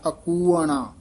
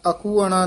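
First: ਅਕੂਅਣਾ with a short break after ਅ; ਅ, dash, ਕੂਅਣਾ; correct pronunciation. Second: ਅਕੂਅਣਾ said as one run, the wrong way; ਅਕੂਅਣਾ without the break after ਅ; ਅਕੂਅਣਾ run together, as not to say it; wrong pronunciation. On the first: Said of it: "ਐੜੇ ਦੇ ਵਿੱਚ dash ਦੇ ਕੇ ਉਚਾਰਨ ਕਰਨਾ ਹੈ". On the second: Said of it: "ਅਕੂਅਣਾ ਨਹੀਂ ਕਹਿਣਾ". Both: Shown as a demonstration.

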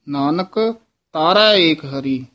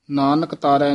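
First: ਨਾਨਕ with a rise, then a break before ਤਾਰੈ; pause after ਨਾਨਕ. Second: ਨਾਨਕ ਤਾਰੈ run together with no break; no stop after ਨਾਨਕ, the wrong way. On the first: Teacher showing students the pause after ਨਾਨਕ. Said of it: "ਇੱਥੇ ਯਮਕ ਲਾਉਣੀ ਹੈ". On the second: Teacher showing students the wrong run-on phrasing. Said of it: "ਨਹੀਂ". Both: Shown as a demonstration.

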